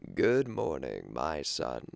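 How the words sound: It is said in a rough, strained voice.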